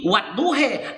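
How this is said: It is said the Turkish way, ending in 'e'.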